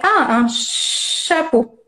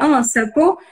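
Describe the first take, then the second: First: The first sound of chapeau is held long. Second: The first sound of chapeau is short. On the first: The speaker calls it right. "Vous faites durer un petit peu le son" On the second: The speaker calls it wrong. "si votre enfant il dit"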